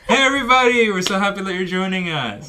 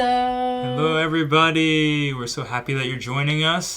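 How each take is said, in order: First: It sounds very cheerful and lively. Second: It sounds only mildly happy and less lively.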